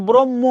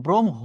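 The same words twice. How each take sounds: First: "ব্রহ্ম" said as brom-mo; wrong pronunciation. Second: "ব্রহ্ম" lower, as brom-ho; correct pronunciation. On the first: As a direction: double the m in "ব্রহ্ম", drop the h. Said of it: "আসলে এটা ভুল". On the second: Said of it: "উচ্চারণটা হচ্ছে". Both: Shown as a demonstration.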